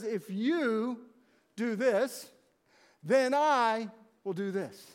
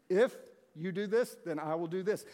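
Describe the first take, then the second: First: Slow, each part set apart with pauses, leaning on "this"; weighty and measured, a pause between the halves; stressed conditional. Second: Said in the usual way. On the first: Shown as a demonstration. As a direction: spell out the condition deliberately, pausing before "do this". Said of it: "It was a conditional covenant". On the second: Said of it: "That's conditional".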